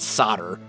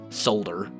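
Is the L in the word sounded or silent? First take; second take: silent; sounded. First: The L sound is silent in the word. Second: The L sound is clearly pronounced in the word. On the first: This is how Americans say it. "Americans pronounce it solder" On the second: This is how Europeans say it. "Europeans solder"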